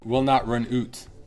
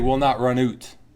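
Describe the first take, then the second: The two takes are said the same way.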